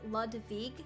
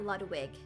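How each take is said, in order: First: The second syllable starts with a V sound. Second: The second syllable starts with a W sound. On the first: The speaker calls it right. "I said Ludwig, because that W should be a V" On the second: The speaker calls it wrong. "not Ludwig"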